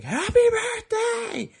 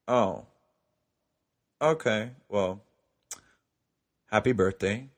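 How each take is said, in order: First: High-pitched, drawn-out squeal; excited birthday cheer. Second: Halting, let-down delivery with long pauses; deflated. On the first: Waking boyfriend at midnight for his birthday, excited squeal. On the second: After he forgot his own birthday, deflated second wish. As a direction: drop the excitement, hesitate between words. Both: Retold or imitated.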